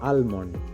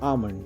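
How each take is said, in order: First: The 'l' sound is pronounced. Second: The 'l' sound is silent. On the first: The speaker calls it wrong. "এটা কিন্তু ভুল উচ্চারণ" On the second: The speaker calls it right. "এলটা silent থাকবে"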